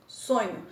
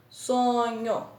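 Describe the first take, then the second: First: Said in the usual way. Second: SO - NHO, both syllables drawn out; teacher sounding out SO-NHO; split into syllables. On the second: Shown as a demonstration. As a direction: say sonho slowly in two pieces, SO, NHO. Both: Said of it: "dois pedacinhos".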